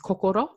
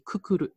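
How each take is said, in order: First: It is said with standard Japanese o vowels. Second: It is said with Okinawan u vowels.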